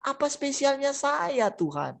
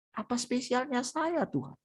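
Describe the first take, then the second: First: A higher, slow, wondering question to God; wondering plea. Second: Softer, tear-choked repeat of the question; tearful. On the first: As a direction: ask in awe, drawing it out. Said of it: "yang kau kunjungi aku di sini". (bertanya takjub, pelan dan tinggi) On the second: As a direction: let the voice nearly break into tears. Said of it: "Dia nangis". (lirih menahan tangis) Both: Acted.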